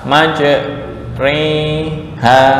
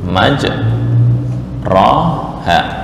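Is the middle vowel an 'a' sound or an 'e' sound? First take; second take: e sound; a sound. First: The middle vowel is shifted toward e. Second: The middle vowel is a plain open a. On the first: "dibaca maj, re, ha, imalah" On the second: "ini ya"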